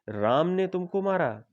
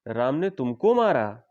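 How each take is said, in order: First: The stress is on राम. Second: The stress is on तुमको.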